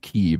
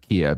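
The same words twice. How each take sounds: First: The name is said with the Ukrainian pronunciation. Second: The name is said with the traditional English pronunciation. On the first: It follows the local language's pronunciation. The speaker calls it wrong. "all the newsreaders would make a point of saying Kiev" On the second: It keeps the long-established local pronunciation. The speaker calls it right. "that's how we've always pronounced it in this country"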